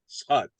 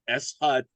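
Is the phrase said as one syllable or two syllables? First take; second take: one syllable; two syllables. First: The words are merged into one syllable. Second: The words are said as two separate syllables. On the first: "in speaking, you hear people speak, they'll say shut" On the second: "I taught it to you as S hut"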